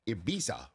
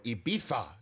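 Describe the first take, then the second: First: The name is said with an American pronunciation. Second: The name is said with a Spanish pronunciation.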